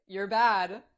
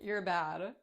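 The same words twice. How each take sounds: First: Loud teasing scold, punching BAD; emphatic playful scolding. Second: Teasing, restrained scold; playful scolding. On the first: Mother teasing the principal, louder playful scolding. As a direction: tease harder, leaning on the last word. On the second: Acted. Mother teasing the principal, playful scolding. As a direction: tease a naughty friend lightly. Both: Teasing repeated, second take stronger.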